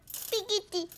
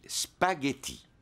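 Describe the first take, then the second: First: "Spaghetti" mangled as "pigiti"; toddler mispronouncing. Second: "spaghetti" said slowly and clearly, spa-ghe-tti; careful correction. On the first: Acted. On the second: Shown as a demonstration. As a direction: model "spaghetti" syllable by syllable for a toddler. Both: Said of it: "Mais on dit spaghetti".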